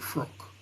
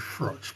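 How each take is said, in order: First: The name ends with a k sound. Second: The name ends with a ch sound. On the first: This is how some other people say it. "I've heard some people pronounce it Frock" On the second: This is how the speaker usually says it. "I always say Froch"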